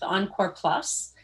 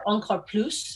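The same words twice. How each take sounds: First: The name is pronounced the English way. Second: The name is pronounced the French way.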